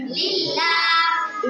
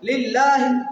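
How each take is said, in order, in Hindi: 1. अंतिम स्वर लंबा खींचा गया है। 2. अंतिम स्वर छोटा करके पढ़ा गया है। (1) "इसके ऊपर खड़ा जबर है, खड़ी हरकत है" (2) "अब इसको मैं नहीं खींच रहा, अब गलत कर रहा हूँ इसको"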